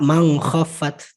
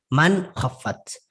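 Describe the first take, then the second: First: The nun is said as an ng sound. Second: The nun is said as a clear n. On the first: The speaker calls it wrong. "enggak mang khaffat" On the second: The speaker calls it right. "tapi man khaffat"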